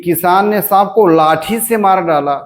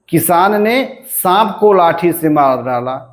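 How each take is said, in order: First: The stress falls on the word लाठी. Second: The stress falls on the word सांप. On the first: "लाठी से बलाघात हुआ" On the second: "सांप पे बलाघात हो गया"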